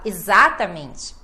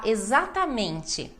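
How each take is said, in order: First: "exatamente" punched early on ZA; misplaced stress. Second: "exatamente" with a long MEN and full final syllable; every syllable of "exatamente", peak on MEN; stress on MEN. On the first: Retold or imitated. Teacher imitating a student's mistake, wrong stress on ZA in "exatamente". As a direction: hit ZA in "exatamente", rest falling away. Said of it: "e aí você me fala exatamente". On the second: Shown as a demonstration. Teacher modelling the correct word, stress on MEN in "exatamente". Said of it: "a gente tem que falar exatamente".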